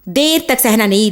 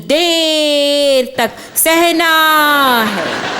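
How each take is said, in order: First: The phrase is said quickly, without stretching. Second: The phrase is stretched out slowly.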